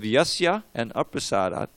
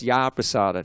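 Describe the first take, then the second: First: The two words are said separately, unjoined. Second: The words merge into one with a long a. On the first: "when you have yasya and aprasadat" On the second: "it becomes a long A"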